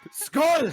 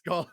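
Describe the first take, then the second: First: The word is screamed loudly. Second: The word is said at normal loudness.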